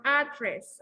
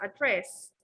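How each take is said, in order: First: ADdress, with the stress up front; stress on first syllable. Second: AdDRESS, with the weight on the end; stress on second syllable. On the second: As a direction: say address with a short, weak first A. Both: Shown as a demonstration. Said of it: "address or address".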